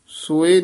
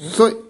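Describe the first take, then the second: First: The word is said slow and drawn out. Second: The word is said short and quick. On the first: The speaker calls it wrong. "ਨੀ ਕਹਿਣਾ" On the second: The speaker calls it right. "ਇਹ ਛੇਤੀ ਬੋਲਣਾ"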